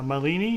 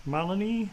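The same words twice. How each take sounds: First: Malini said muh-LEE-nee; Malini with a weak start and long LEE; mispronounced name. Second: Malini said MAH-luh-nee; Malini with a strong MAH and weak middle; first-syllable stress. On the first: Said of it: "No, it's Malini". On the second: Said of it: "you got it right the first time". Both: Real, not acted.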